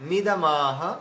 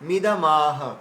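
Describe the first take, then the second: The two takes are said the same way.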